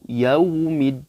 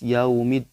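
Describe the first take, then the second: First: The 'u' sound is clear and pressed. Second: The 'u' sound is weak and unclear. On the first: The speaker calls it right. "Tapi harus jelas" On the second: The speaker calls it wrong. "kurang jelas yaumid, yaumid. Nggak boleh ya"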